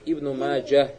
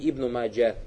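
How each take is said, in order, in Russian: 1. На конце имени слышен звук h. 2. Имя оканчивается на гласный, без h. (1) "Обязательно говорит Ибн Маджа. Г букву произносить" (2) "а не Ибн Маджа"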